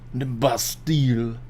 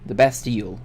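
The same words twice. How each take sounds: First: It is said in a put-on French accent. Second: It is said in the speaker's normal accent.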